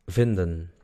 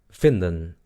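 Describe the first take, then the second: The two takes are said the same way.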